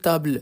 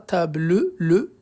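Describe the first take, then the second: First: The word ends without any final vowel sound. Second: A final vowel sound is pronounced after the word. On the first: The speaker calls it right. "on dit" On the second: The speaker calls it wrong. "On ne dit pas"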